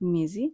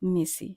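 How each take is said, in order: First: The middle consonant is a voiced z-like sound. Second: The middle consonant is a voiceless s sound. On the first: The speaker calls it right. "আমরা বলবো মেজি" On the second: The speaker calls it wrong. "আমরা বলবো না মেসি"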